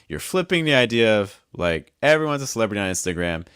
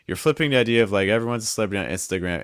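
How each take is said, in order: First: The pitch jumps high and drops between phrases. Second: The pitch stays level across the whole phrase. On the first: The speaker calls it right. "Do you see how all those pitches, the thought groups changed?" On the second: The speaker calls it wrong. "If I don't do that, I end up with something like"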